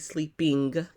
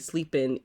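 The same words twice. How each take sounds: First: The final g sound is fully pronounced. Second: The final g sound is dropped. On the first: It sounds overly proper. "it sounds too proper for me" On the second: It is the everyday way most people say it. "that's why I would say"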